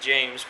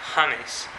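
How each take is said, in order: First: It is said with an English pronunciation. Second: It is said with a Spanish pronunciation. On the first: "his name is James" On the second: "in Spanish they pronounce it James"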